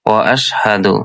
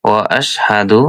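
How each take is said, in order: The two takes are said the same way.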